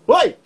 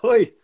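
First: It is said big, loud and expansive. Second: It is said small, quiet and restrained.

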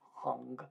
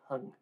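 First: The vowel sounds like the one in 'long'. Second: The vowel sounds like the one in 'hung'. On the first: The speaker calls it right. "It's Hong" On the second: The speaker calls it wrong. "That kind of sounded like Hung, but it's not"

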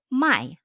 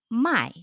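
First: The tone falls sharply from high to low. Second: The tone dips low and then rises. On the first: It means to sell. "사성으로 마이 하면 팔다가 됩니다" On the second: It means to buy. "삼성 마이 사다"

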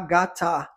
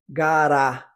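First: The T is a clear, crisp T sound. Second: The T is flapped, sounding like an R.

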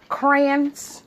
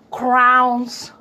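First: The word is said with two syllables. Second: The word is squeezed into one syllable. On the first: The speaker calls it right. "It's crayons from Kerala" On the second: The speaker calls it wrong. "however you pronounced it, it's wrong"

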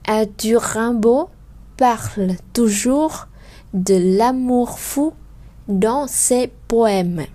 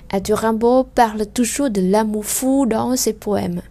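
First: It is spoken slowly with every final sound clear. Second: It is spoken very fast with sounds run together. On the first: "je vais faire clairement des sons" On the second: "Encore plus vite"

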